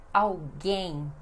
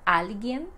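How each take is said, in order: First: "alguém" as au-GAYN, L like U, stress on the last syllable; Portuguese pronunciation. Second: "alguien" the Spanish way, stress on the first syllable AL; Spanish pronunciation. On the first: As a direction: stress GUÉM in "alguém", nasal ending. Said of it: "mas no português é". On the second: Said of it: "No espanhol vocês dizem". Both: Shown as a demonstration.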